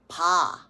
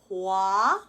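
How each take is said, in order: First: The w glide is dropped entirely. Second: The w glide is fully pronounced. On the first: This is the casual shortcut natives use. "Koreans will actually just go pa" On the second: This is the standard pronunciation. "instead of saying the whole hua"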